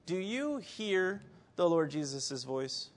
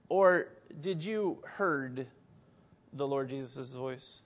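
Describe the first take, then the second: First: Slow question leaning on "hear"; stress on hear. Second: Slow, deliberate weight on "heard"; stress on heard. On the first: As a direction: linger on "hear", then ease off. Question set against its reworded twin. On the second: Wordplay against the previous question. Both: Shown as a demonstration.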